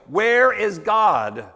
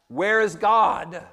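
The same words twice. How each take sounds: First: It is asked in a sterner, firmer voice. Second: It is asked in a calm, plain voice.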